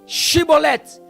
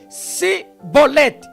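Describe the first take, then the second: First: The word begins with a sh sound. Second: The word begins with an s sound. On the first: The speaker is not from the tribe of Ephraim. The speaker calls it right. "O som era C H" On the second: The speaker is from the tribe of Ephraim. The speaker calls it wrong. "e não era com S, S I"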